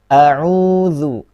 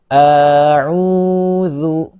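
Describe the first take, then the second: First: The opening vowel is kept short. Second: The opening vowel is drawn out long. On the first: The speaker calls it right. "tapi langsung a'udzu" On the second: The speaker calls it wrong. "jangan dipanjangkan menjadi a'udzu"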